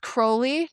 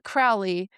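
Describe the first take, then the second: First: The name rhymes with holy. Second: The name rhymes with fowly. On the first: The speaker calls it right. "Crowley rhymes with holy" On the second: The speaker calls it wrong. "Do not say it the other way, people will get offended"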